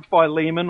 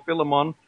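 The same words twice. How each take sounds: First: Philemon said as fy-LEE-mun; long-i pronunciation. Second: Philemon said as FIL-uh-mon; short-i pronunciation. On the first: Host offering listeners one option, Philemon as fy-LEE-mun. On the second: Host offering listeners the other option, Philemon as FIL-uh-mon. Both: Shown as a demonstration. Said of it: "however you wanna, uh, pronounce it".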